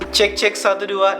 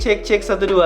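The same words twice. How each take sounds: First: Low frequencies are cut; the level is boosted. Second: Low frequencies are kept; the level is unboosted. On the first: It suits close-up, ASMR-style content. "kita coba pakai low cutnya ... naikin uh, dB-nya menjadi sepuluh dB" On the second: More of the surrounding ambience gets into the recording. "ini jadi suaranya kalau misalnya low cutnya itu dimatiin"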